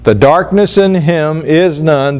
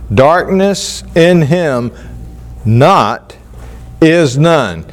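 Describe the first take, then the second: First: Said in the usual way. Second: Slow, with a pause before and after not; stress on not. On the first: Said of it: "but inserted in there is this little word, not". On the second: Shown as a demonstration. Teacher reading the literal Greek to the class, stressing not. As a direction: lean on the word not, set apart on its own. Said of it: "placing this emphasis upon the word not".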